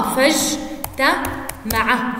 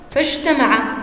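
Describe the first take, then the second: First: فاجتمع very slow, broken into separate syllables; syllable-by-syllable pronunciation. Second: Said in the usual way. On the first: Shown as a demonstration. Teacher showing how it is pronounced, فاجتمع split slowly. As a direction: sound out فاجتمع piece by piece, with pauses. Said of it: "كيف نلفظها؟". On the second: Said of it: "عندنا كلمة".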